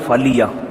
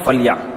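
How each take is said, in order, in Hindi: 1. 'l' के बाद छोटा 'i' स्वर आता है। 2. 'l' के बाद कोई स्वर नहीं है, यह पहला अक्षर बंद करता है।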